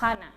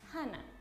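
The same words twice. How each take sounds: First: The first consonant is a strong, harsh rasp. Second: The first consonant is a soft, light breath. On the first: The speaker calls it wrong. "no la marcamos mucho como hana" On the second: The speaker calls it right. "la J es suave"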